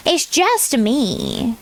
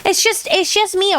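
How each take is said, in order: First: "just" leaned on, very slow, rising; slow emphatic. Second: Said in the usual way. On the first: Real, not acted. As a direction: drag out "It's just me" and lean on "just". Repeats it slowly for emphasis.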